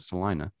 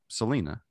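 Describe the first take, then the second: First: The name is said the way locals say it. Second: The name is read as its spelling suggests. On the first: "we pronounce it Salina" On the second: "it's spelled like Selena"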